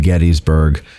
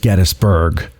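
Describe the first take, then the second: First: The first part sounds like 'Getty'. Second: The first part sounds like 'Geddes'. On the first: This is the pronunciation used today. "that's what we call it now" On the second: This is the imagined original pronunciation. "let's say it was pronounced Geddes"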